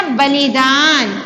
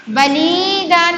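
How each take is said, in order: First: बलिदान with a short i in ली, long final दान; बलिदान, short लि and drawn-out दान; correct pronunciation. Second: बलिदान with the middle ली drawn out as a long ee; wrong pronunciation. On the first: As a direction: slowly model बलिदान with short middle i. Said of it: "छोटी ई की मात्रा". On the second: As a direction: stretch the ली in बलिदान. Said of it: "नहीं ना". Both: Shown as a demonstration.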